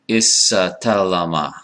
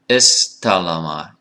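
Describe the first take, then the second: First: An extra vowel separates the opening consonants. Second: The opening consonants run together without a vowel. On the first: The speaker calls it wrong. "that's too many, too many consonants" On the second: The speaker calls it right. "It's istalama"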